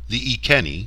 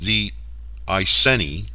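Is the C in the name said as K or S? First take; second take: K; S. First: The C is said as a hard K sound. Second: The C is said as a soft S sound. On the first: The speaker calls it right. "pronounced using the European continental rules for vowels and a hard C" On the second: The speaker calls it wrong. "are often heard using soft C's"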